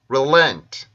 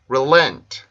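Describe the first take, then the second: The two takes are said the same way.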